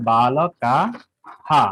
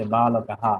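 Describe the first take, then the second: First: বালকাহা very slowly, syllable by syllable, ending "kaa-haa"; visarga as "haa". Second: বালকাহা said as one connected word, ending "haa"; visarga as "haa". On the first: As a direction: stretch out বালকাহা with long final vowels. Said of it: "তাহলে উচ্চারণ হবে". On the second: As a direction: run বালকাহা together, lower in pitch. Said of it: "এভাবে উচ্চারণ হবে". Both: Shown as a demonstration.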